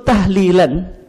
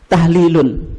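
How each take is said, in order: First: The word ends with an -an sound. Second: The word ends with a -un sound. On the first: The word is read as a verbal noun in the accusative case. "dibaca apa? Mansub gitu. Mansub itu apa? Fathah gitu" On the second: The word is read as a noun in the nominative case. "Dibaca marfu. Marfu itu salah satu tandanya apa? Dhammah"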